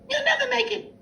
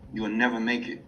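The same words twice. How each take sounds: First: It is said in a high, squeaky cartoon voice. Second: It is said in an ordinary speaking voice.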